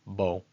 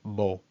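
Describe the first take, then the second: No difference in how they are said.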